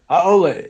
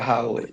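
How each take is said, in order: First: The word is said with no breath. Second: The word is said with audible breath. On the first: "now it's no breath" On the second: "if I said it like this, you're a haole. You're just another human being"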